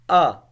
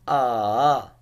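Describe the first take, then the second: First: The pitch falls sharply from high to low. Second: The pitch dips down and then rises. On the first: "fourth tone which is like going directly declining" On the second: "the third tone ah, that going down and then going up"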